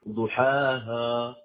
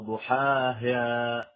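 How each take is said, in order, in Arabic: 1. المقطع الأخير يبدو ثقيلاً ومفخّماً. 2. حركة الهاء الأخيرة تميل نحو صوت الإمالة. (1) "فمنهم من يفخمها ... ضحاها خطأ" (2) "يبالغ في تدقيقها حتى تصير كأنها ممالة"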